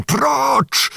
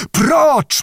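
First: High, commanding cry to stand back; sudden shout. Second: Even higher, more forceful command; thundering shout. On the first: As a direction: order them away in a sharply raised pitch. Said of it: "krzyknął nagle Bohun". (nagły, wysoki okrzyk rozkazu) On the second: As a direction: thunder the order at the Cossacks. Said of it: "powtórzył grzmiącym głosem". (grzmiący, wysoki okrzyk rozkazu) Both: A narrator's reading.

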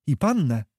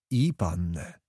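First: PANNĘ lifted high then falling, a pointed question; "pannę" raised as a probing question. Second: "I pannę" dropped low and softer; lower, subdued echo on "I pannę"; low echoing answer. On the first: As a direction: ask it higher, leaning on "pannę". One character asks, other echoes. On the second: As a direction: confirm it quietly, letting "pannę" sink. Answer echoes the question, resigned. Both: Acted.

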